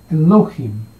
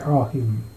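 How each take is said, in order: First: The word has three syllables with an e-o-i vowel pattern. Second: The word has two syllables with an a-i vowel pattern. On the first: This is the traditional vowel-pointed reading. "Masora membaca sebagai Elohim" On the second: This is the reading from the consonant letters alone. "leksionis membaca sebagai Al-him"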